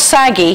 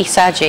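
First: "saggy" with a hard g, as in bag. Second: "saggy" with a soft g, like sadgy. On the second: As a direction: say "saggy" as sadgy, short for Sagittarian. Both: Shown as a demonstration. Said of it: "Not saggy, saggy".

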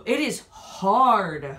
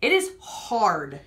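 First: Slow and deliberate. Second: Drawn out slowly; slow and deliberate. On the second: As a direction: drag the words out. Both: Real, not acted. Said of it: "It's a hard-boiled egg".

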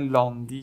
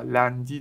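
First: لاندی with a back, long "aa"; mistaken pronunciation. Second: لندی with a front "a" as in "cat"; correct pronunciation. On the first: Teacher showing pupils a common mistake, wrong pronunciation. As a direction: say لاندی with the first vowel wrongly drawn back to "aa". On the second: Teacher correcting the common mistake for pupils, correct pronunciation. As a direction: say لندی with an open front "a", not a back "aa". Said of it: "لندی درسته". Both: Shown as a demonstration.

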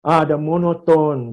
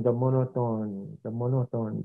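First: Said in the usual way. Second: Lower, flat one-tone delivery; monotone. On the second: Shown as a demonstration. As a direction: drone it with no tone at all.

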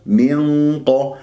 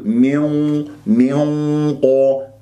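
First: Slow "من قا" with dark held nasal and open qa; heavy ghunna. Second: "من قا" hummed through pursed, rounded lips; wrongly rounded nasal. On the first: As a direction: thicken the hum of "من" into an unrounded "قا". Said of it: "الغنة تكون مفخمة". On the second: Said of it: "تكور شفاه وتضم". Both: Shown as a demonstration.

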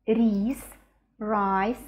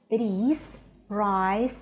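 No difference in how they are said.

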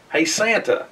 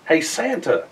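Both takes have the same delivery.

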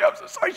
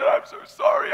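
First: High, tearful repeat; imitating wife sobbing. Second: High, crying apology; imitating wife sobbing. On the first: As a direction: still high and crying, a bit softer. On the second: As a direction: squeeze it out high through tears. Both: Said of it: "We're bawling".

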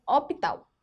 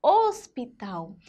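First: HOSPITAL said as "ópital", open O, no S; S left out. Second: Slow HOSPITAL with closed "ôs" and clear S. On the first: Teacher shows pupils the word without S, open O. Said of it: "Se tivesse sem o S". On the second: Teacher puts the S back for pupils, closed O. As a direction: stretch the closed first syllable of HOSPITAL. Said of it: "fica um som mais fechado". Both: Shown as a demonstration.

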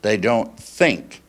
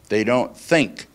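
Both takes have the same delivery.

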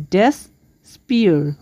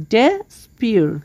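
First: ডেসপিয়ার said slowly, syllable by syllable; split into syllables. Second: Said in the usual way. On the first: Shown as a demonstration. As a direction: spell out ডেসপিয়ার in two slow parts. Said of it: "ডেসপিয়ারকে আমরা দুই ভাগে ভাগ করতে পারি". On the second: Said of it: "দুই ভাগে ভাগ করতে পারি".

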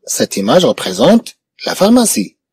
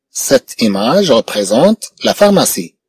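First: Said in the usual way. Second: Slow, careful teacher repeat; slow model repeat. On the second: Shown as a demonstration. Teacher repeating the sentence slowly for pupils, careful and slow. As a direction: say it slowly for the class.

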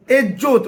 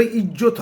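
First: এজ্জত with a front e sound instead of i, said loud; mock the wrong vowel in এজ্জত; mispronounced ezzat. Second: Said in the usual way. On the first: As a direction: say এজ্জত the mistaken way, stressed. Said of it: "উচ্চারণে বলছে". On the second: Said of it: "ওটা ইজ্জত হবে".

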